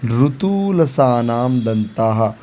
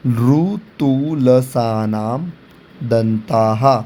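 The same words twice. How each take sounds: First: Slow recitation. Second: ऋतुलसानाम drawn out very slowly, each syllable separate, then दंताः; सूत्र को धीरे-धीरे अक्षर-अक्षर बोलना. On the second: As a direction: spell out ऋतुलसानाम slowly for students. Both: Shown as a demonstration. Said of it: "इसका भी एक सूत्र दिया हुआ है".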